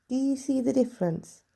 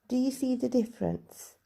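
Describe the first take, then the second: No difference in how they are said.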